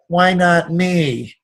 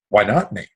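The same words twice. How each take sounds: First: It is said in a whining, self-pitying tone. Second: It is said in a confident, assertive tone. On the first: The speaker feels treated unfairly. The speaker calls it wrong. "the victim voice of" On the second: The speaker claims success as deserved. The speaker calls it right. "a winning affirmation"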